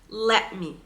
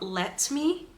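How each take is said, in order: First: The T in 'let' becomes a glottal stop. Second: The T in 'let' is clearly released. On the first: The speaker calls it right. "It's like in Arabic we have this hamza" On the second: The speaker calls it wrong. "So it's not let me"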